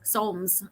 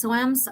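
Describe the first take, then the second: First: Soams rhymed with foams, settled; one-syllable pronunciation. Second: Soams said as SO-ems; two-syllable pronunciation. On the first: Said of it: "Okay, like foam". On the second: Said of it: "you don't pronounce the E". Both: Shown as a demonstration.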